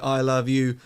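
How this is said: All three words get equal stress. The meaning is ambiguous. "three words say it in the same way"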